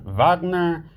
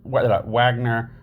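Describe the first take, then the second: First: The name is said with a German pronunciation. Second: The name is said with an English pronunciation. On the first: "or the German Wagner" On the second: "like English Wagner"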